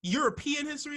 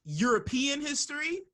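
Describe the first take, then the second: First: High, louder, pointed disbelief; loud incredulous European history; incredulous question again. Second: High, pointed disbelief; mock-baffled European history; incredulous question. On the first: Retold or imitated. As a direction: press the question, baffled. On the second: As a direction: ask it like he can't be serious. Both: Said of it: "I'm like".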